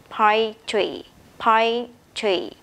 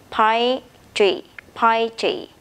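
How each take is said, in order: No difference in how they are said.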